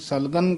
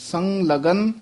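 First: The first syllable is plain, without a nasal. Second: The first syllable carries a nasal sound. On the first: The speaker calls it wrong. "ਕਈ ਪਾਠੀ ਸਿੰਘ ਸਲਗਨ ਕਹਿ ਜਾਂਦੇ ਨੇ, ਉਹ ਤਾਂ ਬਿਲਕੁਲ ਹੀ ਗਲਤ ਹੈ" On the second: The speaker calls it right. "ਸੰਗ ਦੇ ਵਿੱਚ ਡੈਸ਼ ਦੇ ਕੇ ਬੋਲਣਾ ਹੈ"

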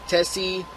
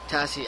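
First: The first vowel sounds like the vowel in bet. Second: The first vowel sounds like the vowel in bat. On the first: The speaker calls it wrong. "Oh, not Tessie" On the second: The speaker calls it right. "Tassie. Yes"

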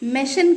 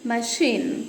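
First: The first vowel sounds like 'e'. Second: The first vowel sounds like 'a'. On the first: The speaker calls it wrong. "మెషిన్ కాదనాల్సింది" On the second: The speaker calls it right. "కాదనాల్సింది మషీన్"

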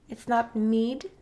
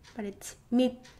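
First: The final consonant is released as a d. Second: The final consonant is held without release. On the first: The speaker calls it wrong. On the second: The speaker calls it right.

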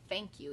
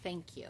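First: The word begins with an f sound. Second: The word begins with a th sound. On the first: The speaker calls it wrong. "make a F sound. ... It is not thank you" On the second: The speaker calls it right. "It is thank you"

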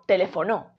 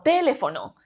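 First: The stress is on the fourth syllable. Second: The stress is on the first syllable. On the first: "Y si fuese no" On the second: "Si la sílaba tónica de esta palabra fuese te"

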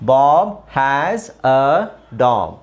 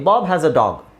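First: The sentence is read slowly, one word at a time. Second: The sentence is read clearly and fairly fast. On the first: "ನಿಧಾನಕ್ಕೆ ಹಿಂಗೆ ಓದೋದು" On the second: "ಸ್ಪಷ್ಟವಾಗಿ ಅದನ್ನು ಸ್ವಲ್ಪ ಫಾಸ್ಟಾಗಿ"

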